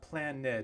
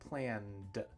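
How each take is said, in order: First: The word is said with two syllables. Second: The word is said with one syllable. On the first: The speaker calls it wrong. "But it's not planned" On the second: The speaker calls it right. "It's just one sound, one syllable"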